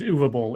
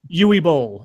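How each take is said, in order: First: The first name sounds like 'oo-va'. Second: The first name sounds like 'you-ee'. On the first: The speaker calls it right. "you're right. It is Uva Bowl" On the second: The speaker calls it wrong.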